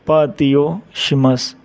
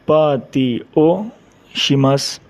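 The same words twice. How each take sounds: First: Said in the usual way. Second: Slow demo. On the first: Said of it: "repeat at normal pace". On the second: Shown as a demonstration. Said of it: "teacher models phrase slowly".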